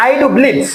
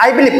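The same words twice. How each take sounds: First: Firm emphasis on do as in a grammar lesson; stress on do. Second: Said in the usual way. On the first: Shown as a demonstration. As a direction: do pressed a little higher and firmer, the rest of I do believe even. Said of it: "এই জোর দিয়ে বোঝানো". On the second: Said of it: "আমি I believe মানে আমি বিশ্বাস করি".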